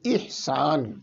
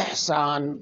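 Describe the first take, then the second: First: The first vowel is a thin, short 'i'. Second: The first vowel is a thicker, open 'e'. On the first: This is the Arabic pronunciation. The speaker calls it right. "इसको बारीक करके पढ़ना चाहिए। इहसान ये सही तरीका है।" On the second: This is the Urdu pronunciation. The speaker calls it wrong. "इसको जरा मोटा करके और मजहूल पढ़ते हैं"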